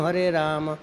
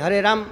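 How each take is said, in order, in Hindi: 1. 'Ram' नाम को पूरा बोला जाता है। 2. 'Ram' नाम को छोटा करके, आधा बोला जाता है। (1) "ऐसे बोलते हैं" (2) "ऐसा नहीं"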